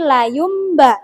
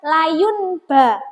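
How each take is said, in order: First: The nasal before b sounds like m. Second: The nasal before b sounds like n. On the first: The speaker calls it right. "tapi layum ba. Nunnya itu berubah menjadi menjadi mim" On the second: The speaker calls it wrong.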